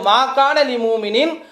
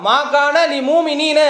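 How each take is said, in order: First: The last word ends in a short 'in' sound. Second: The last word ends in a long 'eena' sound. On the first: The speaker calls it right. "அங்க என்ன இருக்கு" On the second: The speaker calls it wrong. "மூமினீனன்னு சொல்லிட்டான்"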